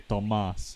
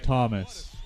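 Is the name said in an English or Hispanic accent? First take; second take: Hispanic; English. First: The name is said in a Hispanic accent. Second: The name is said in an English accent.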